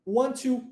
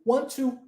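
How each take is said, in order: No difference in how they are said.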